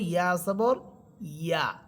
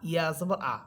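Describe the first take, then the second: First: The vowel begins with a clear y-glide. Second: The vowel is a plain a without a glide. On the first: The speaker calls it right. "ইয়া হরফের উপরে জবর দিলে হবে" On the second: The speaker calls it wrong. "অনেকেই একরকম করে ফেলে ... এভাবে বলে"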